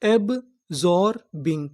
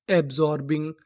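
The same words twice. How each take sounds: First: absorbing drawn out syllable by syllable; slow sounding out. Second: Said in the usual way. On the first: Shown as a demonstration. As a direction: stretch absorbing slowly for the class. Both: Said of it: "पूरी meaning क्या बनी?".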